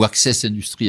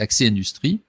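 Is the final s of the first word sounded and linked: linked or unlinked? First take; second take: linked; unlinked. First: The final s is sounded and linked onward. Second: The final s is silent, with no linking. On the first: It sounds like the English word access. The speaker calls it wrong. "avec la liaison" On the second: It is the proper French word. The speaker calls it right. "en français, c'est accès industrie"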